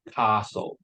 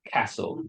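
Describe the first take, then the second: First: "castle" with a long open ah, cahstle; southern English "castle". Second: "castle" with a short flat a as in cat; northern English "castle". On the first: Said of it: "it's long". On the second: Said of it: "the R sound is short, like castle". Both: Shown as a demonstration.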